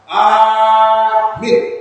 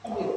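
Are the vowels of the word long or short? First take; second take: long; short. First: A vowel is drawn out long. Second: Both vowels are short. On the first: It asks for protection and safety. "ada yang panjang" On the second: It means safe and calm. "itu kalau pendek dua-dua"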